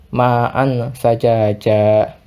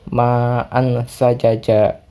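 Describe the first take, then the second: Both takes have the same delivery.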